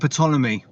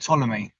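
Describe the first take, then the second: First: The word starts with a pronounced P sound. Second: The word starts with a T sound, P silent. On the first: The speaker calls it wrong. "I don't think you have to pronounce the P" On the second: The speaker calls it right. "Oh yeah"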